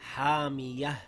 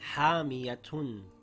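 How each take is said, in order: First: The word ends with a soft h sound. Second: The word ends with a t sound and un. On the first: "Now the word reads hamiyah with a ha at the end" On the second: "The word reads hamiyatun"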